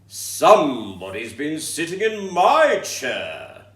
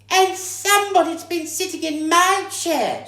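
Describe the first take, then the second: First: It is said in a deep, growling voice. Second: It is said in a shrill, squeaky voice.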